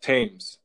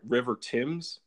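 First: Thames said "temz" with short e. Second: Thames said "thaymz" with long a. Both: Shown as a demonstration. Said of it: "Is that how you say it".

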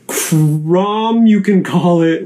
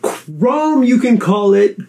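First: CROM with a drawn-out open "ah"; open-vowel version. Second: CROM said as "Chrome", long "oh", high pitch; long O version. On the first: Host announcing both names are fine, open-vowel version. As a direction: stretch Crom to rhyme with "Tom". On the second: Host announcing both names are fine, long-O version. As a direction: roll out a high "Krohm". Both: Shown as a demonstration. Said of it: "He anointed both names".

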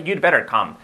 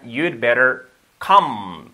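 First: Said in the usual way. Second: Very slow teacher's demonstration; deliberate, drawn-out classroom model; slow model sentence. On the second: Shown as a demonstration. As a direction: stretch each word out for learners to copy. Teacher models the phrase slowly.

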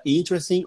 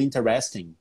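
First: "interesting" stressed on the first syllable, IN-tres-ting; "interesting" in three syllables, stress first; correct tonic syllable. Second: "interesting" stressed late, in-te-RES-ting; "interesting" in four syllables, stress on the third; less common stress. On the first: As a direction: hit the start of "interesting". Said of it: "pode errar a sílaba tônica". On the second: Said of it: "A outra é uma pronúncia". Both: Shown as a demonstration.

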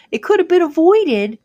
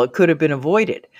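First: "could" punched, much higher and louder; emphatic repeat. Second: Said in the usual way. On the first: Shown as a demonstration. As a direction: hammer home "could have been avoided". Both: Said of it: "repeats with emphasis".

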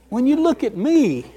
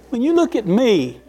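Both takes have the same delivery.

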